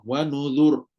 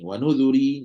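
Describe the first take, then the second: First: The word ends on a silent, heavy r sound. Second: The word ends with a vowel after the r. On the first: The reading stops on this word. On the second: The reading continues without stopping.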